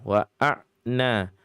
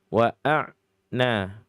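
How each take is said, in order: The two takes are said the same way.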